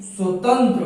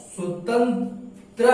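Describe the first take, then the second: First: स्वतंत्र run together, ending in a short "tra"; correct pronunciation demo. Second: स्वतंत्र slowly broken, ending in a long "traa"; स्वतंत्र drawn out as "swatan-traa"; wrong pronunciation demo. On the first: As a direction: keep the last vowel of स्वतंत्र short. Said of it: "होता है". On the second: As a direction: split स्वतंत्र and stretch its final vowel. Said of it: "नहीं". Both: Shown as a demonstration.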